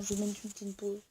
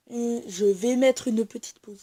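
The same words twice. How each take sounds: First: Said in the usual way. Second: Louder, emphatic restatement; loud, emphatic repeat. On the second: Real, not acted. Vlogger repeats the pause announcement to viewers, loud and emphatic.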